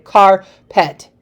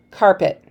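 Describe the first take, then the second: First: "carpet" broken in two, car... pet, with a pause; split into syllables. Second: Said in the usual way. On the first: Shown as a demonstration. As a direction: take a breath between the halves of "carpet". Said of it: "we don't take a breath". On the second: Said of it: "But if I say it".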